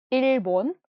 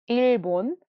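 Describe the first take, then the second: No difference in how they are said.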